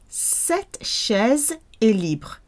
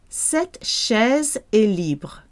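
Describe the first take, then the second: The two takes are said the same way.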